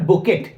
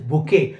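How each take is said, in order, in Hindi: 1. इस शब्द के अंत में t की ध्वनि का उच्चारण होता है। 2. इस शब्द के अंत में कोई t ध्वनि नहीं होती। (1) "इट इज नॉट बुकेट" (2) "इसमें टी साइलेंट होता है"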